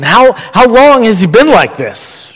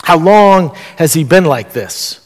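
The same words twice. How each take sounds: First: Higher-pitched, pressing question; lightly acted, raised-pitch query. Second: Understated caring question; unhurried question, entering into the pain; gentle concern. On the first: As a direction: ask it with a touch of surprise. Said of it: "I'm a little bit surprised". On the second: Retold or imitated. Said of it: "This is a question of concern".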